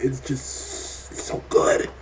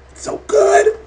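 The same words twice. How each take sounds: First: Slow, hushed whisper; breathy whisper. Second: A much higher, louder squeal; excited squeal. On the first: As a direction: whisper it slowly, savouring it. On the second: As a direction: squeal it out in delight. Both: Real, not acted. Gushing about how good the show is.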